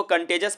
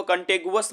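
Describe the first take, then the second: First: कंटेजस said the right way; correct pronunciation. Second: कंटेगुअस said as kan-te-gu-as, the wrong way; कंटेगुअस with a hard g and u sound; कंटेगुअस mispronounced on purpose; wrong pronunciation. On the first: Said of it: "इसको कंटेजस पढ़िएगा". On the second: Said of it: "आप इसको कंटेगुअस मत पढ़िएगा". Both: Shown as a demonstration.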